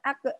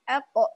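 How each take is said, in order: First: The final consonant bounce sounds light and thin. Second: The final consonant bounce sounds heavy and thick. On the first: The speaker calls it wrong. "bukan ake" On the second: The speaker calls it right. "qalqalahnya pun akan ikut tebal juga"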